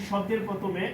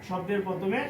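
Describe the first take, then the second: The two takes are said the same way.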